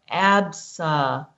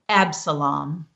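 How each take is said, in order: First: It is sounded out one letter at a time. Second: It is said smoothly as one whole word.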